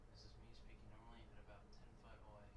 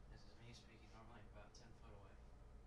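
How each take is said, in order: Both takes have the same delivery.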